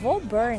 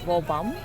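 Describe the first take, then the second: First: The name ends with a clear 'burn' sound. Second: The name ends with a 'bam' sound. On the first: This is how the name is written. "Woburn actually" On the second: This is how local people say it. "they pronounce it as Wobam"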